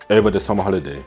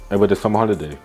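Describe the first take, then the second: No difference in how they are said.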